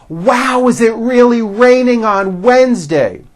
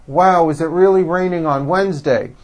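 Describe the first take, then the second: First: Loud, high, wide-open American enunciation; exaggerated mouth movement. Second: Small-mouthed, restrained enunciation; lips held flat. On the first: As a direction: say it big, mouth opening wide and lips coming forward. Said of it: "Did you see how much my mouth seemed to move". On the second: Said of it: "It wasn't with my lips flat". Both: Shown as a demonstration.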